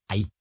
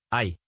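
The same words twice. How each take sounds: First: Said in the usual way. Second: «ahí» as one syllable, «ay»; «ahí» reduced. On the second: Shown as a demonstration. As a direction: collapse ahí into a single stressed A glide. («ahí» reducido a «ay») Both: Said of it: "suprimir fonemas".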